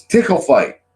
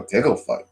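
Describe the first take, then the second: First: Higher, mock-eager chirp; imitated eager exclamation. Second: Puzzled echo. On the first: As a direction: announce it like a playful brat. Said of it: "And she just goes". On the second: Retold or imitated. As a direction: repeat it back, unimpressed and puzzled. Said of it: "And I go".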